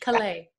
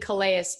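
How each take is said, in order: First: The name is pronounced the French way. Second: The name is pronounced the English way. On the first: The speaker calls it right. "We got to go with the French" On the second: The speaker calls it wrong. "I keep saying it wrong"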